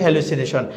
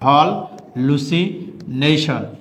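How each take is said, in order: First: It is said the usual way, with one l. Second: It is split as 'hal-lucination' with a doubled l.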